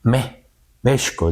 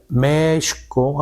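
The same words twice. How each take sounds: First: México stressed on the first syllable, a stammered Me, México; the Spaniards' México, stress on Mé; Spanish accent placement. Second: México said slowly as Meshko, the vowel stretched; long vowel. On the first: Retold or imitated. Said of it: "Pero de verdad era como México alargando". (México con acento en la primera sílaba, como los españoles) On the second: Shown as a demonstration. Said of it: "Para alargar, imagínate". (México con vocal larga, despacio)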